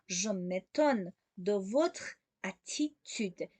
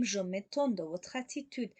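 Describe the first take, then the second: First: Very slow, separating "Je m'étonne", "de votre", "attitude"; slow, word by word. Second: Said in the usual way. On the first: Shown as a demonstration. Teacher repeats the model for learners, very slowly in separate chunks. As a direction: dictate "Je m'étonne de votre attitude" in small pieces.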